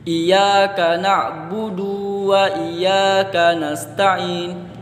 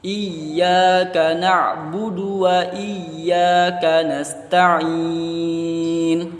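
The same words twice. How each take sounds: First: The du in na'budu is drawn out long. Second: The du in na'budu is kept short. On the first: The speaker calls it wrong. "Jadi du panjang" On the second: The speaker calls it right. "seharusnya itu tidak panjang"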